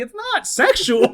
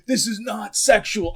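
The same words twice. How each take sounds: First: High, slow mocking echo. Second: Indignant, slow and higher; mock offended insistence; offended protest. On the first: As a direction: parrot him back high and slow. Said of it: "I'm like". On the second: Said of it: "He's like".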